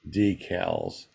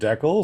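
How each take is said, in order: First: Decals is said the American way. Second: Decals is said the Canadian way.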